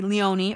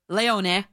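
First: The name is pronounced the anglicized English way. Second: The name is pronounced the Italian way. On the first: "but you say Leone" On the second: "That's how you say it in Italian"

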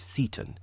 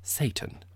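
First: The name sounds like 'Seton'. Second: The name sounds like 'Satan'. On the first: "His name is probably pronounced Seton" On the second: "you could pronounce it Satan, which seems rather startling"

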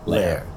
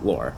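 First: The vowel sounds like 'air'. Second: The vowel sounds like 'or'. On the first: The name is read as its German spelling intends. "makes it like the O-E-H and air. And that's what makes it Lehr" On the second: The name is read from its spelling with a plain O. "O, I'll go with the O, Lore"

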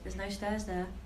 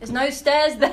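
First: It is said at normal volume. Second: It is said a little bit louder.

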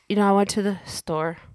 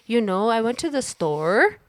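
First: The voice falls lower at the end. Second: The voice rises at the end, like a question.

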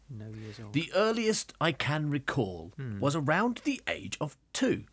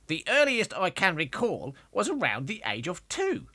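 First: It is read in the reader's ordinary voice. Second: It is read in a put-on young child's voice.

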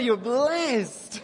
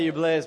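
First: It is said in an earnest, emphatic way. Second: It is said in a casual, offhand way. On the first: The statement is a serious, sincere affirmation. The speaker calls it right. "like, no, you're blessed" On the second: The statement is a passing, lighthearted remark. The speaker calls it wrong. "Not like, hey, you're blessed, bro"

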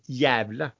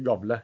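First: The name begins with a soft y-like sound. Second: The name begins with a hard g sound. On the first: The speaker calls it right. "Jævle heter det forresten" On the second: The speaker calls it wrong. "Ikke gavle"

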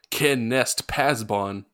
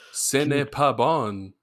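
First: It is said with an American-style pronunciation. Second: It is said with a French-style pronunciation.

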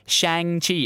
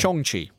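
First: The name is said with an anglicized pronunciation. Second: The name is said with a native-like pronunciation. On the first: The speaker calls it wrong. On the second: The speaker calls it right.

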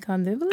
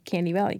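First: It is said as one native place name. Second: It is said like the English words candy valley. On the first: The speaker calls it right. "you mean Kandivali?" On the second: The speaker calls it wrong. "he couldn't pronounce it correctly, so he would always say Candy Valley"

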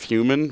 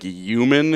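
First: The word begins with a clear h sound. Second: The word begins without an h sound. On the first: The speaker calls it right. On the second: The speaker calls it wrong.

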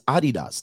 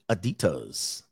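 First: It is said in the original, non-American way. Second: It is said in the usual American way. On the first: "That's how you really pronounce it" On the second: "we in America pronounce it Adidas"

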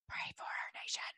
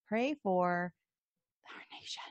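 First: It is whispered. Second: It is said in a normal voice.

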